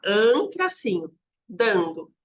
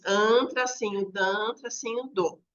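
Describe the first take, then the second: First: "an, tracinho, dando" said slowly, splitting off only "an" and keeping "dando" whole; slow partial split. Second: "an, tracinho, dan, tracinho, do" spelled out slowly, one syllable at a time with "tracinho" said between each; slow syllable split. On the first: Teacher trying a new split at the board so the word fits the line, slowly. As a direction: say "an", then "tracinho", then "dando" run together as one chunk. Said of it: "coloco lá". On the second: Teacher showing the class at the board, slowly splitting "andando" into its syllables. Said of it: "Daí eu divido com eles".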